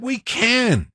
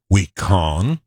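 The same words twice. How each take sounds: First: "can" with a flat short a, as in cat. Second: "con" with a broad "ah" in place of can; wrong vowel in can. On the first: Host showing what Obama did say, "can" with short a. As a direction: say "can" to rhyme with "man". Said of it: "He said". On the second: Host showing what Obama didn't say, "con" for can. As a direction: say "We con" to rhyme with "on". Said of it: "He didn't say". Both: Shown as a demonstration.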